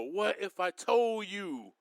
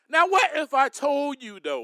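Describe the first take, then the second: First: What if I told you dropped lower and softer, slowly; preacher pulls back to hush the crowd, softly and slowly; hushed, slower ask. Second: Said in the usual way. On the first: Shown as a demonstration. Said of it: "Let me calm down a little bit".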